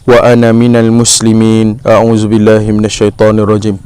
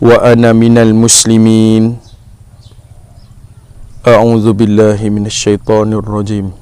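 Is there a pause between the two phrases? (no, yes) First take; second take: no; yes. First: The two phrases run together without a pause. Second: There is a pause between the two phrases. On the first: The speaker calls it wrong. "Jangan kita lakukan" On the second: The speaker calls it right. "hendaklah kita berhenti memutuskan bacaan selepas membaca doa iftitah sebelum kita membaca ta'awuz"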